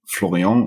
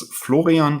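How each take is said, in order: First: The name is pronounced with French sounds. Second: The name is pronounced with German sounds. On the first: "Florian in French is also perfectly fine" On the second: "if you want to be super correct about the pronunciation in German"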